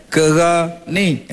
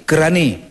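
First: "Kerani" stretched slowly; slow, drawn out. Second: Said in the usual way. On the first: Shown as a demonstration. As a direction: lean on "Kerani" slowly for effect. (sebut "Kerani" perlahan dan panjang)

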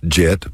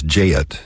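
First: Said in the usual way. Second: Jet split into two syllables, "jay-ut"; Texas diphthong. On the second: Shown as a demonstration. Showing listeners the Texas dialect, two-syllable jet. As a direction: stretch jet out Texas style. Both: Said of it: "convert one-syllable words to two-syllable words".

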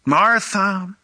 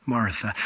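First: Said in the usual way. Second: Hushed repeat. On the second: Shown as a demonstration. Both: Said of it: "Anytime you say something twice in Hebrew, it's for emphasis".

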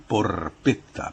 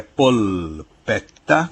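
First: Porpetta slowly, R instead of L; pronounced with R. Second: Polpetta slowly, L instead of R, long T; standard Italian pronunciation. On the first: Professor shows the dialect variant, pronounced with R. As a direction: draw out porpetta, sounding the R. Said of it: "Com R". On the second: Professor contrasts standard Italian with dialect, standard Italian pronunciation. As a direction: draw out polpetta with clear L and double T. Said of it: "no caso do italiano, padrão, não dos dialetos". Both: Shown as a demonstration.

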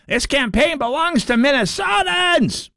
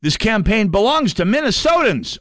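First: Slow, much higher, shouted rally cry; hammed-up shouted slogan, higher and slow; mock shout. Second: Said in the usual way. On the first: Shown as a demonstration. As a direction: belt it out like a rally chant. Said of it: "I'm sorry, Peggy Flanagan said it". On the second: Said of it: "And I quote".

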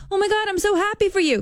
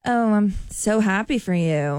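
First: High, bursting with real joy; genuinely thrilled. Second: Slow, flat and insincere; fake, flat congratulations. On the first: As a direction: gush it out, truly delighted, way up high. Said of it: "'cause I'm truly happy". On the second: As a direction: say it slow with no real joy behind it. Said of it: "But if I were to say". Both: Shown as a demonstration.

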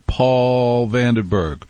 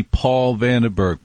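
First: Slow. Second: Said in the usual way. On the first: Shown as a demonstration. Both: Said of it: "the great morning man of Albany".

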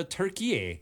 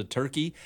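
First: Turkey said as tur-kee-YAY; Turkey pronounced like Türkiye; Turkish-style pronunciation. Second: Said in the usual way. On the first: Retold or imitated. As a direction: give Turkey three syllables ending in "ay". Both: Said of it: "as opposed to Turkey".

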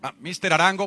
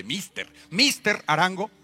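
First: Said in the usual way. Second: "mister, mister Arango" drawn out slowly; spicy English. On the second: Shown as a demonstration. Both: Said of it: "pa tenerle más picante".

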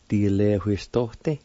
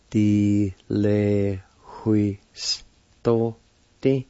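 First: Said in the usual way. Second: Very slow "Di le hui sto te", drawn out in pieces; syllable by syllable. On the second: Shown as a demonstration. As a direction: teach "Di le hui sto te" one long syllable at a time. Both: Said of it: "It's pronounced like this".

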